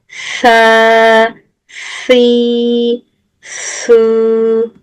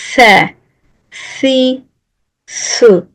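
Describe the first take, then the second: First: The syllables are drawn out long. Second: The syllables are said short.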